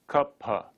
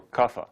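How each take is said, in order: First: Kapha split as "kup-ha", a p plus breath; aspirated p in kapha. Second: Kapha as "kuffa", ph said as f; f sound in kapha. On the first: Teacher modelling the next word, aspirated kapha. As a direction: say kapha with p then h. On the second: Teacher offering the alternative, f-sound kapha. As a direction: soften the ph of kapha to an f. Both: Shown as a demonstration. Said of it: "or kapha".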